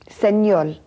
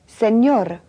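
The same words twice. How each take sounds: First: The final r sounds like an l. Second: The final sound is a clear r.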